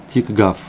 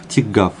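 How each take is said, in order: The two takes are said the same way.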